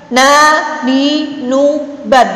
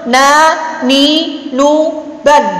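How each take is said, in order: The two takes are said the same way.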